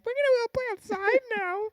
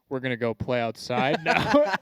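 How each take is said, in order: First: It is said in a high-pitched voice. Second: It is said in a deep voice.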